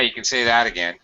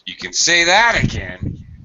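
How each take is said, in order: First: It is said softly with little energy. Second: It is said forcefully with more energy. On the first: The agreement is only mild. "You say it weakly, it's weak" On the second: The agreement is emphatic. "then it's stronger"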